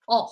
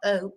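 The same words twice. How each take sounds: First: The vowel is said with a Spanish sound. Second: The vowel is said with an English sound. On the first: The speaker calls it right. "in Spanish, it's O" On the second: The speaker calls it wrong. "it's not O"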